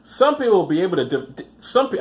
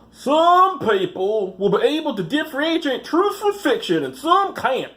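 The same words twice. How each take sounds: First: Said in the usual way. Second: High, slow Missouri drawl impression; hammed-up Missouri accent voicing the camp director. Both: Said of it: "I should do a voice for him".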